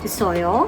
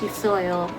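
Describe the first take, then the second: First: It is said with a questioning tune. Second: It is said with a statement tune. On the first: It asks whether there is one. "ചോദിക്കുമ്പോൾ അതൊരു ചോദ്യമാണ്" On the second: It states that there is one. "പറയുമ്പോൾ"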